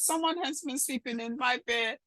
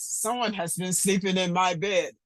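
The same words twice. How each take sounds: First: It is said in a tiny, small voice. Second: It is said in a big, deep voice. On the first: "in his wee little voice" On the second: "in a great big voice"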